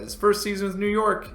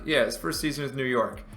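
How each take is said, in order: First: High, louder disbelieving question; checking a stat you can't believe; surprised question. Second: Said in the usual way. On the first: Real, not acted. Streamer double-checks a player's stats, surprised and rising.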